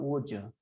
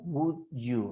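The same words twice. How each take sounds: First: Said fast, with the words run together. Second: Said slowly, with each word sounded fully. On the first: "Pero si hablamos rápido" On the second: "la forma lenta"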